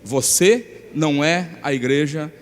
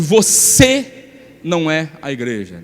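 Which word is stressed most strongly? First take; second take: none; você. First: The words are said evenly, without special emphasis. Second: The word você is said with stronger emphasis.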